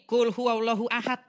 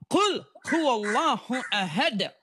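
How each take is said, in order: First: The opening word is said loosely, without careful articulation. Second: The opening word is articulated carefully, Arabic style. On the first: The speaker calls it wrong. "Oh salah, bukan kul huwallahu ahad" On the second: The speaker calls it right. "Bacanya harus kul"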